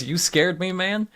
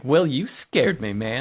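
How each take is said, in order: First: Said in the usual way. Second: Slow, smug, sinking low on man. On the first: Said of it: "the way he says". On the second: Retold or imitated. Jeff answering the skeleton guy, slow and smug. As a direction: say it pleased with himself, not frightened. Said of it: "It's real smug".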